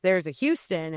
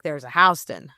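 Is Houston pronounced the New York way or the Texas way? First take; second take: Texas; New York. First: It is pronounced the Texas way. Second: It is pronounced the New York way. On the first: "in Texas, there's a Houston" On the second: "and in New York, there's a Houston"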